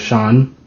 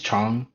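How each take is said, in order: First: The name begins with an sh sound. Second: The name begins with a ch sound. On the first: The speaker calls it wrong. "not a S H" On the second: The speaker calls it right. "like a C H"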